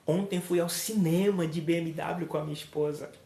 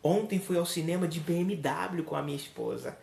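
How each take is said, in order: First: The word cinema carries the emphasis. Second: The word BMW carries the emphasis. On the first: The place is the main message. "Se é o local onde eu vou" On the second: The means of transport is the main message. "Observe que eu dei ênfase ao transporte"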